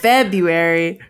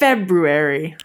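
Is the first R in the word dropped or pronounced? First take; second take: dropped; pronounced. First: The first R sound is left out. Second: The first R sound is clearly pronounced. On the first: The speaker calls it wrong. "I know everyone says February" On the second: The speaker calls it right. "but it's February"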